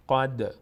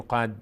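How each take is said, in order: First: قد with a bouncing release on the d; tongue pops off the d in قد; qalqala on قد. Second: قد with the final d shut dead; stopped d ending قد, no echo; قد without qalqala. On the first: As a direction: let the final d of قد echo briefly. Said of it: "در مخرجش میلرزه". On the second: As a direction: hold the tongue on the d of قد, no release. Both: Shown as a demonstration.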